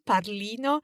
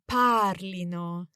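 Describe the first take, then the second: First: The stress is on the second syllable. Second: The stress is on the first syllable. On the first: The speaker calls it wrong. "the temptation is to say it wrongly" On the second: The speaker calls it right. "it's actually the emphasis on the stem"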